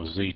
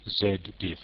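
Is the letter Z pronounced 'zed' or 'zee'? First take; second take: zee; zed. First: The Z is said as zee, North American. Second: The Z is said as zed, non-North American.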